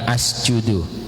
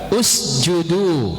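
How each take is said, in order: First: The word begins with an 'a' vowel. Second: The word begins with a 'u' vowel. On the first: The speaker calls it wrong. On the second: The speaker calls it right.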